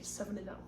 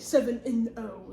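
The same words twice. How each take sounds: First: The word 'and' is reduced to an n. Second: The word 'and' is said in full. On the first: The speaker calls it right. "You just say seven and like an N instead of and" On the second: The speaker calls it wrong. "you don't say"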